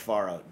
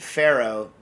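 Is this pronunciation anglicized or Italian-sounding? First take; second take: Italian; anglicized. First: The word has the original Italian pronunciation. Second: The word has an anglicized, Americanized pronunciation. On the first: It is the accepted pronunciation. The speaker calls it right. "even though I know it's pronounced Faro" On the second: It is said to annoy someone. The speaker calls it wrong. "I pronounce it Faro to bother Nastasia"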